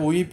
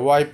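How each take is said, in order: First: The vowel sounds like 'ee'. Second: The vowel sounds like 'eye'. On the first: The speaker calls it wrong. "এটা উইপ হবে না" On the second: The speaker calls it right. "ওয়াইপ হবে উচ্চারণটা"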